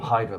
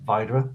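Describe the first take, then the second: First: The name starts with a sound like 'high'. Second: The name starts with a sound like 'vee'. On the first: The speaker calls it wrong. "I call him Hydra, but it's not pronounced Hydra" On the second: The speaker calls it right. "It's Vidra"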